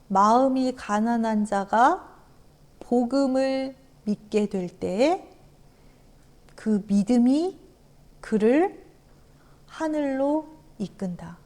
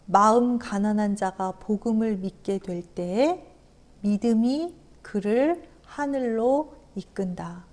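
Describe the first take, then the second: First: It is read slowly. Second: It is read at normal speed.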